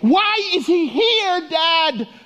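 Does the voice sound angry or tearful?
angry. It sounds angry and frustrated.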